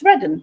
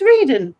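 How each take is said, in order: First: The name is said the usual local way. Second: The name is sounded out letter by letter. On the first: The speaker calls it right. "That's how you pronounce it" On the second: The speaker calls it wrong. "the whole of me wants to say it's Reading"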